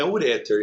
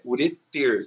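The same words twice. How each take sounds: First: Uréter stressed on the first syllable, like u-RÉ-ter; the teacher shows the common mistake, uréter with the wrong stress. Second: Ureter slow, stress on the last syllable, u-re-TER; the teacher gives the right form, slow, ureter stressed at the end; correct stress ureter. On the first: Teacher to class, showing the mistake: uréter stressed early. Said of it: "não é uréter, é ureter". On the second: Teacher to class, showing the right form: ureter stressed at the end. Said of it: "é ureter". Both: Shown as a demonstration.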